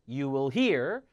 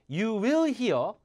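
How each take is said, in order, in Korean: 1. 'will'은 강세를 받지 않아요. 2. 'will'은 강세를 받아요.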